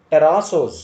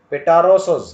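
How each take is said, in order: First: Pterosos said terasos, silent p; correct pronunciation. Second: Pterosos with the p sounded, petarosos; wrong pronunciation. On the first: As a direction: pterosos without the p. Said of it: "We have to say". (pterosos ಅನ್ನು p ಇಲ್ಲದೆ ಹೇಳಿ) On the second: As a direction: pterosos with a spoken p. (pterosos ಅನ್ನು p ಸೇರಿಸಿ ತಪ್ಪಾಗಿ) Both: Shown as a demonstration.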